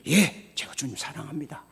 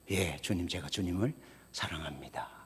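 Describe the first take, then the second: First: It is said with force and emphasis. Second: It is said in a plain, normal voice.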